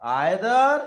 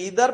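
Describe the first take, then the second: First: It begins with an 'eye' vowel sound. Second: It begins with an 'ee' vowel sound.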